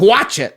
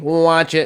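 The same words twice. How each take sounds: First: It is said in a plain, ordinary voice. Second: It is said in a small robot-like voice. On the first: The speaker calls it wrong. "That's that's not the voice" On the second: The speaker calls it right. "They have like a"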